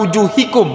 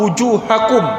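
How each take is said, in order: First: The vowel before -kum is an 'i' sound. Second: The vowel before -kum is an 'a' sound. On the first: The speaker calls it wrong. "bukan wujuhikum, bukan kasroh" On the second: The speaker calls it right. "bukan kasroh tapi fathah"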